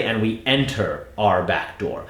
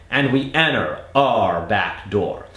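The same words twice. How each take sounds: First: Enter said with a clear, hit T; careful enter. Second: Enter said as enner, no T; colloquial enter. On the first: Coach showing the version not to use, T hit. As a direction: enter with the T fully sounded. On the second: Coach modeling the casual American enter, no T. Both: Shown as a demonstration. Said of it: "we didn't say".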